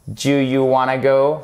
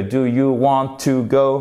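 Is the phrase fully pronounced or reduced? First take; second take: reduced; full. First: The words are run together in a quick shortened form. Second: Each word is said fully and separately. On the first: "Ça sera abrégé. Et ça, c'est une forme familière" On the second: "ça va plus vite que"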